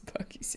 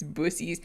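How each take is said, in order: First: The middle consonant is a k sound. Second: The middle consonant is an s sound.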